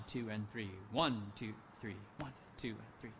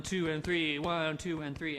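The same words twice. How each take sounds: First: "two" and "three" lower and softer, flowing on; light flowing count. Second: Each beat "two" and "three" punched and even; counting every beat. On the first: Conductor shows the forward moving count, light. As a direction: let the count glide forward. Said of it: "we will not slow down if we're thinking". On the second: Conductor shows the slow way of counting, heavy. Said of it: "The only time we slow down is when we are thinking". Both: Shown as a demonstration.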